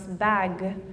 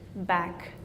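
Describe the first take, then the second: First: The final g is voiced. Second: The final consonant is voiceless, like k. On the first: "your voice box is vibrating" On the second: "g is not voiced, so it almost sounds like a k"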